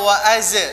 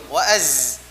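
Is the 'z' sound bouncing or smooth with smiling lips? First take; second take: bouncing; smooth. First: The 'z' sound bounces back sharply. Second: The 'z' flows smoothly with spread, smiling lips. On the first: The speaker calls it wrong. "Tidak wa'az" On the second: The speaker calls it right. "wa'az dengan posisi mulut ya tersenyum"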